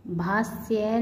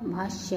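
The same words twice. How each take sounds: First: भाष्य with s for sh; mispronounced. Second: Said in the usual way. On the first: Shown as a demonstration. Teacher showing students an error, भाष्य mispronounced "bhasya". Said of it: "नहीं होता". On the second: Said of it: "होता है".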